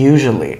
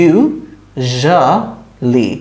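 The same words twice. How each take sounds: First: Said in the usual way. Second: "usually" broken into three slow, separate syllables, yu - zha - lee; syllable-by-syllable pronunciation. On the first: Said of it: "আমার সাথে বলেন". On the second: Shown as a demonstration. Teacher has students repeat after her, "usually" sounded out syllable by syllable. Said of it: "এটার প্রনাউন্সিয়েশনটা আমাদের একটু practice করতে হবে".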